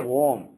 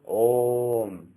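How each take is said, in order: First: The word begins with a v-like sound. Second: The word begins with a pure vowel. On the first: The speaker calls it wrong. "you should never say Om" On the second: The speaker calls it right. "You should always say Om. There is no Vakara there"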